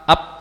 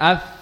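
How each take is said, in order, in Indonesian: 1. Bunyi akhir menutup kedua bibir bersama-sama. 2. Bunyi akhir menggunakan bibir bawah dan gigi seri atas. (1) "Bukan bibir dengan bibir, pa, ap, salah" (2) "bibir bawah bagian dalam bertemu dengan ujung gigi seri atas"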